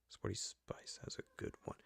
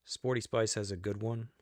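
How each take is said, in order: First: Whisper. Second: Said in the usual way. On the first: Real, not acted. Repeating her remark to viewers as a whisper. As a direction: breathe the same line again as a secret.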